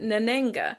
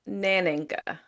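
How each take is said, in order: First: The stress is on a later syllable. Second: The stress is on the first syllable. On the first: "they pronounce it Nanenga" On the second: "they stress the first part of the the word Naninga"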